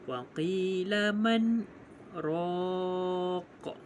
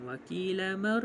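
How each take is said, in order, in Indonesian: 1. Bunyi n jelas, dengan hentian singkat. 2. Bunyi n menyatu dengan bunyi r setelahnya. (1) "bacaan izhar adalah nyata... tanpa bernafas" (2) "jangan waqila man, waqila mar"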